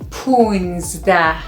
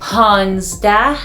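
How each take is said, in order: First: It uses the informal, everyday pronunciation. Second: It uses the formal, written-style pronunciation. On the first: It suits everyday speech. The speaker calls it right. "informal and everyday speaking, we say" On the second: It suits academic or written language. The speaker calls it wrong. "the academic and formal writing is"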